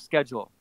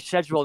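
First: Schedule is pronounced the American way. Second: Schedule is pronounced the British way. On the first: "instead of schedule" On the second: "I say schedule"

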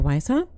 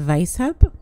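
First: The word is said in the speaker's ordinary accent. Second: The word is said in a put-on German accent.

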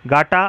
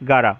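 First: The middle consonant is a clear t sound. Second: The middle consonant is a quick r-like tap. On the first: "Today's contraction is gata" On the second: "it is also pronounced as gara"

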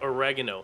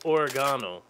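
First: The word is said the American way. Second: The word is said the non-American way. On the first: This is how it is said in North America. "Only in the United States and by default in Canada, ... is the Italian spice oregano called oregano" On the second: This is how it is said elsewhere in the world. "Everywhere else in the world, ... it's oregano"

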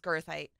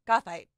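First: The first syllable has an R sound. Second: The first syllable has no R sound. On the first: The speaker calls it wrong. "That's how my professors used to pronounce it, was girthite" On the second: The speaker calls it right. "It's gothite. That makes way more sense because there's not an R in that word"

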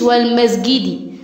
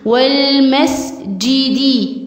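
First: The s sound has no extra breath. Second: The s sound has extra audible breath. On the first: The speaker calls it wrong. "مش والمسجد" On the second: The speaker calls it right. "هنهمس في السين"

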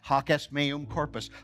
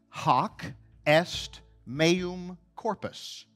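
First: The phrase is said quickly and run together. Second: The phrase is said slowly and clearly.

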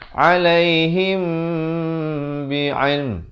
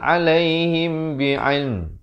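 First: The m before b is nasalized for two counts. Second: The m before b is said short and clear. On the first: The speaker calls it right. "Ikhfa syafawi di sini dua harakat" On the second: The speaker calls it wrong. "Tak betul"

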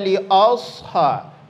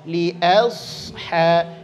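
First: The vowel after li sounds dark, like 'o'. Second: The vowel after li sounds thin, like 'a'. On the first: The speaker calls it wrong. "Jangan dibaca li asha, li o" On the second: The speaker calls it right. "Hamzah tipis"

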